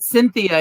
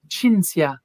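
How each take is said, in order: First: The middle sound is a soft th. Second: The middle sound is a ts. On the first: "they don't say the th" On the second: "Italians that called me Cinzia"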